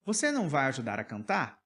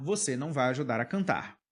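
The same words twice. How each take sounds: First: "Você não vai ajudar a cantar" asked as a yes-no question, tune lifting on "cantar"; question intonation. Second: "Você não vai ajudar a cantar" stated, with a fall on "cantar"; falling, final tune on "cantar"; statement intonation. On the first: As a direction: ask it with the melody alone, "cantar" raised. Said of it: "Estou perguntando". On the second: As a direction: tell it, don't ask it, "cantar" going down. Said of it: "Não estou perguntando". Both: Shown as a demonstration.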